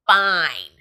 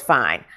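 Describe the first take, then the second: First: "fine" drawn out slowly with heavy stress; all-caps emphasis. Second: Said in the usual way. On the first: Acted. Reading a girl's praise of Theo's looks, "fine" heavily stressed. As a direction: stretch "fine" as if written in capitals. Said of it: "in all caps". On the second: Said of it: "He's always looked fine, but I'm talking fine".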